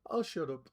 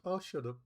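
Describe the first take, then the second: First: Said in the usual way. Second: "I'll shut up" dropped softer, trailing; softer self-silencing. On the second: Shown as a demonstration. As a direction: mumble it away sheepishly.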